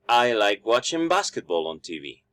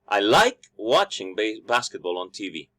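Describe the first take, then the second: First: The stress is on basketball. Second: The stress is on like.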